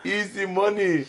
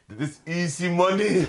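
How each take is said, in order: First: Raised and slow, relishing easy money; savoured repeat. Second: Laughing through a raised, slow easy money; laughing quote. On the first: Repeating the brother's boast to a friend, relishing. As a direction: draw out easy money with glee. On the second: Telling a friend the brother's boast, laughing. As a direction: chuckle while quoting the cocky brother. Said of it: "Hij zei". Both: Retold or imitated.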